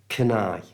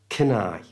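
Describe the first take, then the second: The two takes are said the same way.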